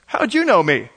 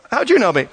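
First: Said in the usual way. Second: Amazed question. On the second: Retold or imitated. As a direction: ask it as if floored by the answer. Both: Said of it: "Nathan looks at him and goes".

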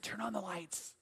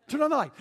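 First: Very soft, understated retold advice; quietly stating the obvious; hushed deadpan. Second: Higher, firmer repeat of the advice; insistent, pointing out the obvious; emphatic retold advice. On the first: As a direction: drop it right down for a dry punchline. Deadpan answer to frightened callers. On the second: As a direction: lift the voice to drive it home. Repeats the advice more forcefully.

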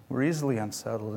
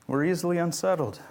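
First: Softer, lower repeat of "We're easily unsettled"; quiet echo. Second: Said in the usual way. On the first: Shown as a demonstration. Preacher repeating his point to the congregation, softer and lower. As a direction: drop the voice and repeat it fast and soft. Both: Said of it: "repeated line, second softer".

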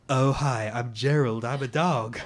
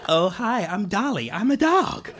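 First: Low dog voice in bad American accent; deep, simple dog with fake American accent; Gerald. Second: Perky dog, fake American, pitch climbing; Dolly. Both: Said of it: "sort of bad American accent".

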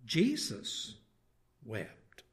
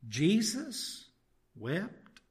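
First: "Jesus" then "wept", separated by a pause, each falling; "wept" sinking away after a held "Jesus"; falling statement. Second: "Jesus" then "wept", each rising as a question; "wept" lifted at the end like a query; questioning rise. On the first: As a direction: answer slowly, letting "wept" drop low and soft. Answers the who question as statement. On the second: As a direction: ask it in disbelief, pausing after a high "Jesus". Same words turned into a question. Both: Shown as a demonstration.

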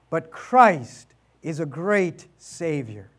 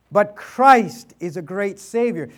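First: Slow emphatic. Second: Said in the usual way. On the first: Shown as a demonstration.

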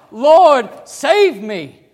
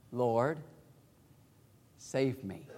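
First: Loud, high desperate cry; much higher and louder cry for help. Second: Soft, low plea to the Lord; hushed prayer under the breath; quiet plea. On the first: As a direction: shout it like a drowning man. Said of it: "You're crying out". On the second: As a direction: say it softly, almost to yourself. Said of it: "do you suppose he whispered that". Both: Shown as a demonstration.

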